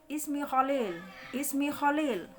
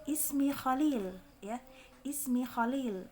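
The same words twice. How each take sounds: First: "Khalil" darkened towards kholil; wrong thick vowel. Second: "Khalil" with a clear a and thin l; correct thin vowel. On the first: Teacher shows students the mistake, thickened vowel. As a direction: round the a in "Khalil" to o. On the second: Teacher models introducing oneself, thin clear vowels. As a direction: say "Ismi Khalil" slowly, light open vowel. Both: Shown as a demonstration.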